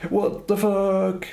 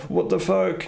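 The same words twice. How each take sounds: First: High, slow, drawn-out disbelief; stunned disbelief. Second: High, shocked what the fuck; shocked outburst. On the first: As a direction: stretch it out, aghast. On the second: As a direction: blurt it out in disbelief. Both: Retold or imitated. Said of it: "Instead of going".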